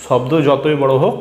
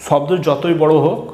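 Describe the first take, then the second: No difference in how they are said.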